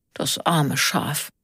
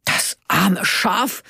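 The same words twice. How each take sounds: First: Slow, subdued sympathy; pitying. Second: Slow, higher indignant question; incredulous echo. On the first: Onno looks at the dead sheep, pitying. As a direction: lament it slowly, falling. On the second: Karl repeats Onno's words, indignant and incredulous. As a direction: throw it back slowly, rising in outrage. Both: A narrator's reading.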